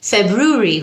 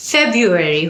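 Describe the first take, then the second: First: "ফেব্রুয়ারি" as FEB-roo-ree; British pronunciation. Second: "ফেব্রুয়ারি" as FEB-yoo-eri; American pronunciation. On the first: Teacher labels the British form, "ফেব্রুয়ারি" as FEB-roo-ree. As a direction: sound the br in "ফেব্রুয়ারি". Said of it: "British". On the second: Teacher labels the American form, "ফেব্রুয়ারি" as FEB-yoo-eri. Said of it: "American উচ্চারণ". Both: Shown as a demonstration.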